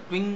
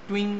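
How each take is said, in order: Both takes have the same delivery.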